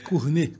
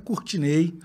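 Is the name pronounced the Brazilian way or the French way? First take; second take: French; Brazilian. First: The name is pronounced the French way. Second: The name is pronounced the Brazilian way. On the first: This follows the name's original language. "meu nome é francês, então a pronúncia correta é Cournet, como vinho Chardonnay" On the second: This follows how people say it at home. "Mas eu sou baiano, então a pronúncia mais comum é Courtinei, como a gente fala lá em casa"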